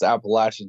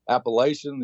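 First: It is said with a Southern drawl. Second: It is said without a Southern drawl. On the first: The speaker sounds local to the region. The speaker calls it right. "And so it's Appalachian" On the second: The speaker sounds like an outsider to the region. The speaker calls it wrong. "you kind of show that you're not from around here"

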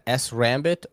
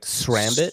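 First: The S is said as a separate letter. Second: The S is blended into one word. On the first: "is that S Rambit" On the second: "do you gotta roll it like Srambit"

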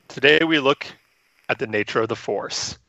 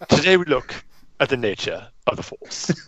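First: It is said in the speaker's usual accent. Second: It is said in a put-on British accent.

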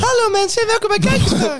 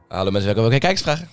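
First: The voice is pitched higher. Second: The voice is pitched lower. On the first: The speaker calls it right. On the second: The speaker calls it wrong.

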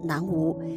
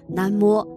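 First: It is pronounced nan wu. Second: It is pronounced na mo. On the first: The speaker calls it wrong. "而不能读成南无" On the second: The speaker calls it right. "正确读音是南摸"

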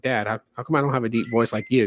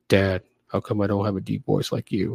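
First: The voice is at its normal pitch. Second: The voice is pushed down to sound deep.

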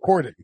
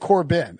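First: The middle consonant is a D sound. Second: The middle consonant is a B sound. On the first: The speaker calls it right. "so Corden" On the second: The speaker calls it wrong. "I thought it was a B. I was saying Corbin"

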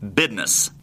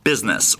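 First: The word is said in a Texas accent. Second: The word is said in a plain accent.

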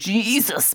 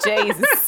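First: The first syllable has the usual vowel. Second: The first syllable has a changed vowel. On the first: The situation is serious. "if it's serious business, I'm saying" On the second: The situation is less serious. "Jesus softens the Jesus a little bit"

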